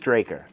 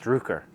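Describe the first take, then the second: First: The first syllable sounds like 'drack'. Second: The first syllable sounds like 'druck'. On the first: This is believed to be the correct name. The speaker calls it right. "but I think it's Draker" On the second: This is how it was said before. The speaker calls it wrong. "I think I said in the past Drucker"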